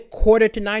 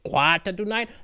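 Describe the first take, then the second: First: It is said in the speaker's ordinary accent. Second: It is said in a thick Sri Lankan accent. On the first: "he wouldn't say" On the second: "He'd say"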